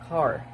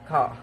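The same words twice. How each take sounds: First: It is said in an American accent. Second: It is said in an Australian accent. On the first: "In American" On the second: "In Australian"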